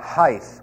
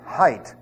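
First: The word ends with a th sound. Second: The word ends with a t sound. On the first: The speaker calls it wrong. "There is no such word in the English language" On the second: The speaker calls it right. "It ends with an HT"

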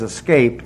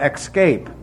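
First: The first syllable is 'ess' with no k sound. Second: The first syllable is 'ecks' with a k sound. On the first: The speaker calls it right. "the word there is escape. There's no X in it" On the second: The speaker calls it wrong. "I hear more idiots talking about escape"

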